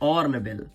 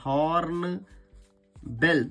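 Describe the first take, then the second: First: The word begins with a vowel, no h. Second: The word begins with an h sound. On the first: The speaker calls it right. "बल्कि लिखा है ऑर्नबेल" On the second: The speaker calls it wrong. "हॉर्नबेल नहीं लिखा बेटा"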